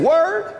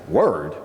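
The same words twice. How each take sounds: First: High, rising query; cellmate's questioning word. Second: Very low, falling; tough-guy echo. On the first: Cellmate queries the newcomer, high and rising. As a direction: pitch it way up as a question. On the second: New inmate echoes his cellmate, low and tough. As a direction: echo it back deep in the chest. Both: Retold or imitated.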